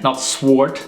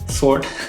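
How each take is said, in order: First: A w sound is heard after the s. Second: The w after the s is silent. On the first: This is how the speaker used to say it. The speaker calls it wrong. "as I used to say it" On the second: This is how the speaker says it now. The speaker calls it right. "I'm actually saying it right now, right?"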